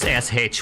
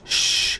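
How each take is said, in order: First: It is said as two separate letters. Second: It is said as one hushing sound. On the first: The team is pushing. "it's S H whenever they're pushing" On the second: The team is flanking. "it's shh whenever they're flanking"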